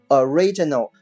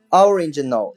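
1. 它有自己的标准发音。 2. 它跟随 origin 这个词的发音。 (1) "它读作original" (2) "有同学会读Origin 所以呢顺着读下来读成original 那就错了啊"

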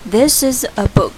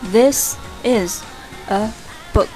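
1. 说得更快，单词连在一起读。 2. 单词是以正常语速分开读的。

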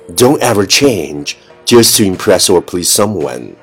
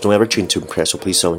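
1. 这句话语速适中。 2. 这句话语速很快，一口气说完。

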